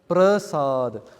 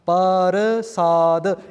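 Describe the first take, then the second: First: The p and r join with no vowel. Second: A full vowel separates the p and r. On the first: "the papa is actually becoming smaller" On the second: "Each letter is it has its own identity"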